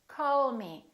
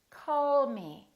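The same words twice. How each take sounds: The two takes are said the same way.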